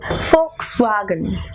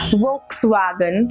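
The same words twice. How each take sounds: First: The word begins with an F sound. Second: The word begins with a V sound. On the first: The speaker calls it right. "It is actually Volkswagen" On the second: The speaker calls it wrong. "But it is not Volkswagen"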